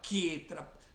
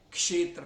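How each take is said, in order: First: The word begins with a plain 'k'. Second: The word begins with a 'ksh' cluster. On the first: This is the Bengali-accented form. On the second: This is the Sanskrit form.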